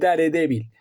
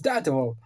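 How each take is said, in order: First: The name is said with Spanish sounds. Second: The name is said with English sounds. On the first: This is how people in Spain have always said it. "Y pasa lo mismo con Daredevil" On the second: This is how the name is meant to be said. "Es Daredevil"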